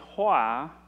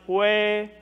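First: The word ends with an 'ah' vowel. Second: The word ends with an 'eh' vowel. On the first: The word is used in its ordinary, unchanged form. "and the other one is hoa" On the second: The word is changed to show respect by avoiding a royal name. "One is hue"

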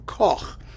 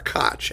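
First: The name has its non-American pronunciation. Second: The name has its American pronunciation.

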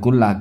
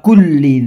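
First: The word ends in an 'ah' sound. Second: The word ends in a short 'i' sound. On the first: The speaker calls it wrong. "Kalau dibaca kullah jadi apa itu?" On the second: The speaker calls it right. "bukan kullah Gus"

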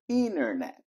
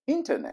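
First: The T after the N is dropped. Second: The T after the N is clearly pronounced. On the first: This is the American way of saying it. "no inglês americano, o T depois do N desaparece" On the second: This is the British way of saying it. "Se for no inglês britânico"

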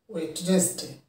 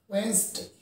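First: The middle 'd' is pronounced, giving three syllables. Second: The middle 'd' is silent, giving two syllables. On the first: The speaker calls it wrong. "Many of us sound it as Wednesday. This is completely wrong one" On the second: The speaker calls it right. "The right pronunciation of the word is Wednesday"

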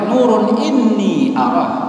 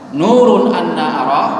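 First: The middle word is said with 'i' vowels. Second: The middle word is said with 'a' vowels. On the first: Light, indeed I truly see Him. "Tulisannya sama, cuman harokatnya beda" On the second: Light, how could I possibly see Him. "Kalau yang pertama nurun anna arah hamzah anna"

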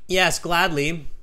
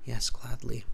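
First: The words are said in a loud voice. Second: The words are said in a quiet voice. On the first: The speaker calls it right. "it means Alexi is saying this with a nice loud voice. And that's absolutely how you should start" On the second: The speaker calls it wrong. "Do not use the voice of a mouse. Okay, don't be like"

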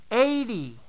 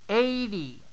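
The two takes are said the same way.

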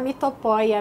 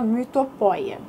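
First: It follows the simpler everyday pronunciation. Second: It follows the strict Greek pronunciation. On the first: The speaker calls it right. "ela diz que é melhor falar mitopoeia mesmo" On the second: The speaker calls it wrong. "senão fica muito esquisito falar mitopoeia"

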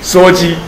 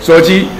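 First: The first syllable is pronounced suo. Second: The same.

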